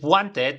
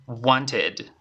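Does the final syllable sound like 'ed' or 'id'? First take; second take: ed; id. First: The ending is pronounced like 'ed', as spelled. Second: The ending is pronounced like 'id'. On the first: The speaker calls it wrong. "no pronuncies wanted" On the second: The speaker calls it right. "sino va a ser wanted"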